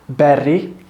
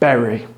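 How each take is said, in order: First: The R is rolled or held long. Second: The R is a single soft English R. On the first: The speaker calls it wrong. "So don't say berry" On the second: The speaker calls it right. "No, it's berry"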